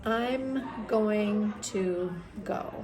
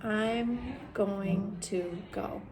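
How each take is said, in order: The two takes are said the same way.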